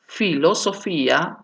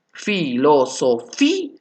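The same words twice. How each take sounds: First: Said in the usual way. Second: "Filosofía" slowly as fi, lo, so, fi, a; syllable by syllable. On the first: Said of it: "Vamos con los siguientes ejemplos". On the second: Shown as a demonstration. Teacher demonstrating an accentual hiatus, syllable by syllable. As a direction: step through "Filosofía", lifting the fi before a detached a. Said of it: "la I es la imponente".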